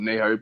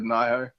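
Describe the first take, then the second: First: Nihon said as NEE-ho; own pronunciation. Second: Nihon said as NIGH-ho; another's pronunciation. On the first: Telling listeners the speaker's own version, Nihon as NEE-ho. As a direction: say Nihon with an "ee" in the first syllable. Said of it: "I call it Nihon". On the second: Quoting how Bella said it, Nihon as NIGH-ho. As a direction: say Nihon with an "eye" in the first syllable. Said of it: "Bella said Nihon". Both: Shown as a demonstration.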